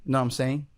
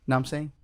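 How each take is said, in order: Both takes have the same delivery.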